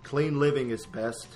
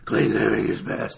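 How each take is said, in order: First: It is said in a bright, theatrical hero voice. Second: It is said in a low, gruff, growly voice. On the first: It copies the classic television Batman. The speaker calls it right. "as Batman would say" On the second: It copies the later film Batman. The speaker calls it wrong.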